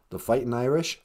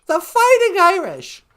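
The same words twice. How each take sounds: First: "The fighting Irish?" asked in the much lower Nana voice with a rising question; puzzled low grandma query; low, doubtful rising question. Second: "The fighting Irish!" called out louder and higher, punching "fighting"; mock rallying shout; loud exclamation. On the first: Pretend. Nana asks, then speaker exclaims. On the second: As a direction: proclaim it like a cheer. Exclaiming the team name.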